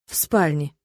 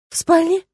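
First: Lower, falling calm confirmation; flat confirmation. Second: High, rising disbelieving question. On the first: Tirk confirming to Lena, low falling reassurance. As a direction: settle it down, low and sure. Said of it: "подтвердил Тирк". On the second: Lena asking Tirk back in disbelief, rising high. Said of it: "севшим от рыдания голосом". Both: A narrator's reading.

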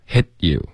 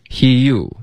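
First: "hit you" with a clean stop on the t; "hit you" split by a held, unreleased t; crisp stop. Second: "Hit you" slurred into "hee-you", higher pitched; wrong take of "Hit you", gliding with no break; run-together mispronunciation. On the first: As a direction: cut "hit" short, then say "you". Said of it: "这个要有干脆的停顿". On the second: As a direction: drop the t stop in "Hit you". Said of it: "不是hit you". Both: Shown as a demonstration.

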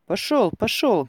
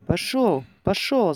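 First: Loud, slow, falling order; shouting away. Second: Shout away. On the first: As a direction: shove him off with the words. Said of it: "кричал кузнец". (громко, гневно гоня прочь) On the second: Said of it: "закричал кузнец". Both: A narrator's reading.

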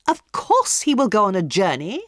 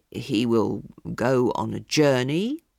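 First: Higher, louder scornful echo; scoffing hostess. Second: Slow, low, guarded prophecy; evasive palmist. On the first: Hostess scornfully repeating the palmist's prophecy, higher and louder. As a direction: throw his words back at him. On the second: Palmist cautiously giving a vague prophecy, slow and low. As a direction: hedge the prediction. Podgers' prediction. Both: A narrator's reading.

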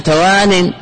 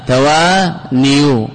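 First: توان with an i vowel after the nun; tawānin, short i in the last syllable; kasra ending. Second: توانيو drawn out slowly, u sound after the nun; slow, syllable-split توانيو showing the original damma. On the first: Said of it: "هذا كسرة". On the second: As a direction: stretch the long aa, then end توانيو on "-niyu". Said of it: "لو قيل بالضمة على النون". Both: Shown as a demonstration.

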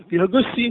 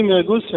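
First: Incredulous echo with a laugh. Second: Said in the usual way. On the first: Shown as a demonstration. Teacher mocks the student's answer, laughing. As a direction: laugh the word back at them. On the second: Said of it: "حد يقول لي".

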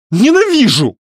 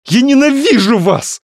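First: High, loud, final hateful cry; shouted. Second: High, loud, hateful scream; shouted. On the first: Varya screams once more at the men, high and loud. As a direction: fling the word as you run. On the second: Varya screams her hatred at both men, high and loud. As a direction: scream your hatred at them. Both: A narrator's reading. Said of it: "она выкрикнула".

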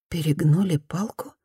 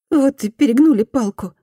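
First: Said in the usual way. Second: Higher, stress on "перегнули" with a fall; "перегнули" stressed, sentence falls; repentant woman. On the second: Acted. Former bully excuses herself, higher, "перегнули" stressed. Woman's quote, Fumi repeats.

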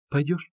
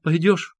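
First: Said in the usual way. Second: Higher, louder insistent repeat; trembling urgent question. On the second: A narrator's reading. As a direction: press him, trembling as if in a fit. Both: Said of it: "спрашивала она его, вся дрожа".

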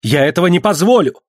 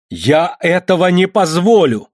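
First: Higher and louder, falling hard on позволю; the son flares up in defiance; flushed angry shout; angry outcry. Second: Higher, louder and slower, позволю dragged and falling; losing control of his anger; last angry yell at his father; furious shout. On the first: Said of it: "вскричал он". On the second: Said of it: "ещё раз крикнул он". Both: Acted.

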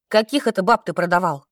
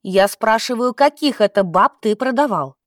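First: Understated angry demand; angry exclamation. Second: Firm, mildly angry questioning; insistent demand. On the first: Настя confronts the old man over women he sold, mildly angry. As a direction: demand an answer with contained anger. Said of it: "гневно воскликнула Настя". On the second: Настя won't let up on the old man, insistent. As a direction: press the question without backing down. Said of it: "не унималась землянка". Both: A narrator's reading.

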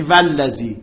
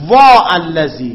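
First: Said in the usual way. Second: Slow, loud وا stretched before الذی; drawn-out lament. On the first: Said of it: "یعنی". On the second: Shown as a demonstration. Teacher showing the forbidden lament form, drawn out. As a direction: cry out وا long and heavy. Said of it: "فلا یقال".

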